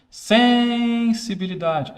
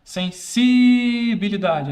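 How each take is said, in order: First: Sensibilidade dragged out slowly, higher and louder; drawn-out shouted word. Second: Sensibilidade slowly stretched, higher and louder; drawn-out shouted word. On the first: Teacher demos how the doll yells sensibilidade, slow and loud. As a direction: stretch out sensibilidade like the toy shouting it. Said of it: "Não, não é assim que fala". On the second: Teacher tries another stress on sensibilidade, slow and loud. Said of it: "é assim que fala? Não, não é assim". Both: Shown as a demonstration.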